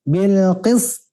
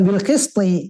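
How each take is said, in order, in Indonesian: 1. Kata ini berakhir pada konsonan tanpa vokal. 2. Kata ini berakhir dengan tambahan vokal i. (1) "Nah, gitu, Pak" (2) "Jangan bil qisti. Kalau qisti ya hidup berarti"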